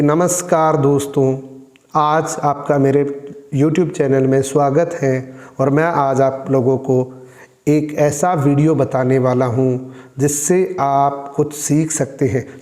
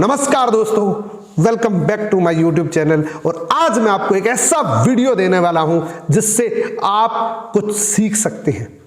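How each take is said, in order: First: Low, slow and level greeting; low-energy channel intro; dull monotone intro. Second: Upbeat YouTuber welcome; energetic intro. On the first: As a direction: welcome viewers in a listless, unvarying tone. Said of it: "शब्द वही है।". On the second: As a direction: punch key words with swinging intonation. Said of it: "शब्द दोनों एक ही है।". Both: Shown as a demonstration.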